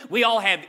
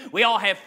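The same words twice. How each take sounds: The two takes are said the same way.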